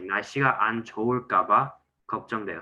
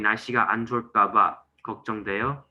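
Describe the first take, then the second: First: The second syllable gets a little extra emphasis. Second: No syllable gets extra emphasis. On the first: The speaker calls it right. "I added just a little bit emphasis on the second syllable" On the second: The speaker calls it wrong. "when you say"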